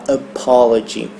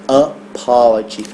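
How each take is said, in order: The two takes are said the same way.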